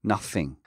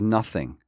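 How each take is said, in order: No difference in how they are said.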